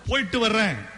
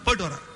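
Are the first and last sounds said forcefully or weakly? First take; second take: forcefully; weakly. First: The first and last sounds are pressed fully. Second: The first and last sounds are weak and clipped. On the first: The speaker calls it right. "வா மேல முழு oxygen, இன் மேல முழு oxygen" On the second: The speaker calls it wrong. "போ மேல அழுத்தர் இல்ல"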